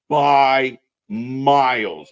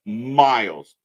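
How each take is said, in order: First: By miles stretched very slow, both words leaned on; slow, weighty By miles; drawn-out emphasis. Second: Miles said once, short and firm with a falling finish; clipped punch. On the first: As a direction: drag out By miles to hammer the point home. Emphatic ranking of wrestlers. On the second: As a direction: snap Miles back as a quick button. Repeats the point for emphasis. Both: Real, not acted.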